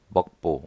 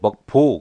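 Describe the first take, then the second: First: The second syllable starts with a plain b sound. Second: The second syllable starts with a tense pp sound. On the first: "먹보 그러면 되는데" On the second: "소리 나기 쉽게 우리가 먹보라고 그렇게 부르잖아요"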